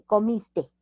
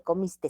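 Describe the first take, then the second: First: "comiste" slowly, ending on the open e; correct ending without S. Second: "comiste" with an S tacked on the end; wrong added S. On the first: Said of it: "se dice comiste". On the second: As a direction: finish "comiste" on a hissed extra s, as "comistes". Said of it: "No se dice comiste". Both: Shown as a demonstration.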